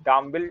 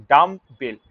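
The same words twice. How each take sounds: First: Said in the usual way. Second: "ডাম্বেল" slow and loud, as dum, bel; split into syllables. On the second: Shown as a demonstration. Teacher counting syllables for students, "ডাম্বেল" slow in two parts. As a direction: break "ডাম্বেল" firmly into two beats. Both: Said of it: "ডাম্বেল হচ্ছে দুটো syllable".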